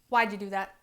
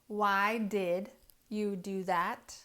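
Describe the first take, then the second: First: Did shrinks to a d sound after why. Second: The word did is said in full. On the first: "native speakers say why'd" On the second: "I hear students all the time saying"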